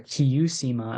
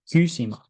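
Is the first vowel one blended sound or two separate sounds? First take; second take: two sounds; blended. First: The first vowel is two sounds in sequence. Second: The first vowel is one blended sound. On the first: The speaker calls it wrong. "as some people try to pronounce it" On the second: The speaker calls it right. "it's not eu, it's u"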